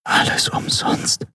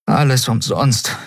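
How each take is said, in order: First: Slow, despairing whisper. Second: Higher-voiced resignation; mildly desperate sigh of defeat; despairing. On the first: A narrator's reading. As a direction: whisper it hopelessly, drawn out. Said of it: "flüsterte sie". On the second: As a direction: voice the lament aloud, dejected. Despairing, first take before whisper.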